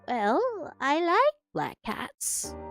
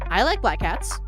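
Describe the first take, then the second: First: It is said as a soft old lady. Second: It is said in his natural voice.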